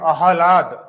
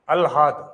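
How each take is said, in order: First: It begins with a long 'aa' before the h. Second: It begins with 'al' before the h. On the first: The speaker calls it right. "शुद्ध रूप से अगर इसको उच्चारण करेंगे तो आहलाद" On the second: The speaker calls it wrong. "शब्द आ गया अलहाद"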